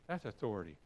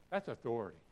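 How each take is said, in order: Both takes have the same delivery.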